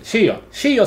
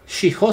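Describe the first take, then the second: First: No h sound is heard between the vowels. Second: An h sound is heard between the vowels. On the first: The speaker calls it right. "sino Shio" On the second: The speaker calls it wrong. "no pronuncias Shiho"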